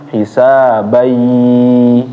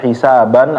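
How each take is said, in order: First: The final n merges into a y sound. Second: The word ends with a clear n sound. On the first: The speaker calls it right. "jadi dimasukin ya" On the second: The speaker calls it wrong. "jangan dibaca hisaban"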